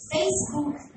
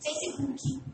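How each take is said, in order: First: Facebook said close to English; English-style pronunciation. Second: Facebook said as fesibuki, with added vowels; Brazilian pronunciation. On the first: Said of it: "aqui é o quê?". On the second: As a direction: say Facebook the Brazilian way, adding i sounds. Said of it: "A gente adequa". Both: Shown as a demonstration.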